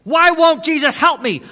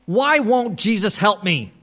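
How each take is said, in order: First: High, loud anguished cry; imitating a frantic man's outburst; desperate shouting. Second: Slow, higher, louder acted lament; imitated despairing question; anguished pleading. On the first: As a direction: shout the question right in someone's face. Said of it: "he got right in my face". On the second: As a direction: plead it like a man at a loss. Retelling the man's anguished complaint.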